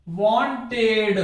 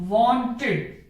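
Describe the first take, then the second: First: वांटेड drawn out slowly with the ending as "ed"; wrong pronunciation, slow. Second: वांटेड ending in a short "id" sound; right pronunciation, ending "id". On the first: Teacher shows students the wrong way, slowly. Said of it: "जो कि ये गलत है।". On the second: Teacher gives students the right way, ending "id". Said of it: "इसका सही उच्चारण क्या होगा?". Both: Shown as a demonstration.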